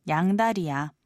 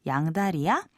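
First: The voice does not rise at the end. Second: The voice rises at the end.

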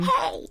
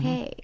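First: It is shouted in a girly baby voice. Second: It is said in a cool, mellow way.

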